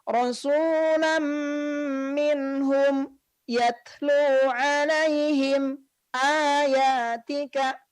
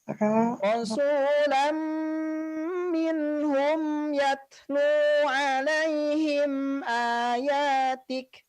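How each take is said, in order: First: The sound is held and broken after each mim. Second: The sound flows on without breaks after each mim. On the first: The speaker calls it wrong. "Suaranya tidak terputus ya, tidak" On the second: The speaker calls it right. "jadi dia suaranya mengalir"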